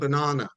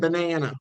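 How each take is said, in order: First: It is said with a British pronunciation. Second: It is said with an American pronunciation. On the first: This is the speaker's own way from home. "I'm saying banana" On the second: This is the local way around the speaker. "rather than banana"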